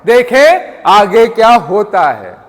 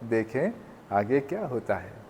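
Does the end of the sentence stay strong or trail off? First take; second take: stays strong; trails off. First: The sentence end is said loudly and firmly. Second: The voice fades weakly at the sentence end. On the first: The speaker calls it right. "End of the sentence को ज्यादा emphasise करना पड़ेगा" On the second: The speaker calls it wrong. "अब मैं ये जानबूझ के अपने सेंटेंस को टेल डाउन कर रहा हूं"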